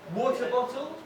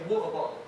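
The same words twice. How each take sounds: First: The middle T sounds are clearly pronounced. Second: The middle T sounds are dropped. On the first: "Instead of" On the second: "we tend to drop the T's in the middle of words"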